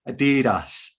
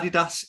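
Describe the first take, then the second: First: It is said the usual American way. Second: It is said the brand's own official way. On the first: This is how people in the US say it. "in the U S they say Adidas" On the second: This is how the company wants it said. "is how they want you to say it"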